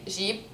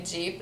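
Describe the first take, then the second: First: Jeep with a soft French J; Lebanese pronunciation. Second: Jeep with a hard English J; English pronunciation. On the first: Showing the Lebanese way, French J in Jeep. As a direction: say Jeep as "zheep". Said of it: "we say Jeep". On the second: Showing what is not said, English J in Jeep. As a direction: say Jeep as "djeep". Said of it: "We don't say Jeep". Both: Shown as a demonstration.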